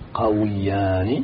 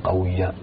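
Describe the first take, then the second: First: The waw is said with an i vowel. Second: The waw is said without an i vowel. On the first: The speaker calls it right. "تقول قويان ... قل بتكسر الواو" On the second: The speaker calls it wrong. "ولا تقول"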